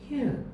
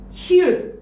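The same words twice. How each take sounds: First: The sound is said weakly and softly. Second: The sound is said strongly and forcefully. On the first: The speaker calls it right. "이런 식으로" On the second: The speaker calls it wrong. "이게 아니고"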